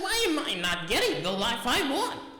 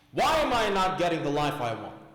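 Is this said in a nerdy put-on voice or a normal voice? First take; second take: nerdy; normal. First: It is read in a put-on nerdy voice. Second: It is read in the speaker's normal voice.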